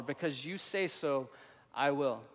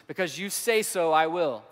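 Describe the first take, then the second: First: Slow, softer, sincere surrender; quiet sincere repeat. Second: Firm, louder resolve on I will; bold declaration. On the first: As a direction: say it gently, as a personal vow. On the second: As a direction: declare it with conviction. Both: Shown as a demonstration. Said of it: "That's the life of a Jesus follower".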